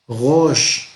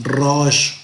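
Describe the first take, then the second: First: "Rosh" with a throaty French-like r; half-French guttural R. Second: "rosh" with a Spanish trilled r; strong rolled R. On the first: Teacher showing the Hebrew R, guttural r in "Rosh". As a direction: start "Rosh" at the back of the throat, no trill. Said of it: "Es como medio afrancesada". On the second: Teacher showing the wrong Hebrew R, trilled r in "rosh". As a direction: roll the r at the start of "rosh". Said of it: "Entonces no es rosh". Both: Shown as a demonstration.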